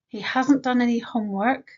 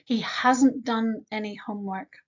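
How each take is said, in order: First: Hasn't pushed up and louder; stress on hasn't. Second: Said in the usual way. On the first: Shown as a demonstration. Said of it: "emphasize that he hasn't done any homework since he was born". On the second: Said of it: "what word do we change if we want to emphasize".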